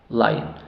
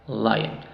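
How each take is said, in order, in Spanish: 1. La segunda vocal se reduce a un schwa débil. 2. La segunda vocal se reduce a un schwa débil.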